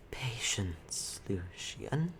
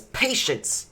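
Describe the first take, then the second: First: Whispered. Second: Loud, high angry snap; indignant outburst. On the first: Webmother calming Lucian, whispered. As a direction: hush him with a whisper. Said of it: "the Webmother says". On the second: Drow throwing the Webmother's word back, angry. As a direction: throw Patience back at her. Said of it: "And he says". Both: Acted.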